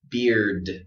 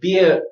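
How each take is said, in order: First: The word ends with a strong, clear d sound. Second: The word is cut off with no final sound. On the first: The speaker calls it right. "we want to stay strong like that at the end" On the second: The speaker calls it wrong. "is to go beer and then it just dies"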